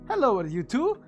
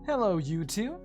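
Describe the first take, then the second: First: It is read in a booming Italian accent. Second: It is read in a plain, neutral accent.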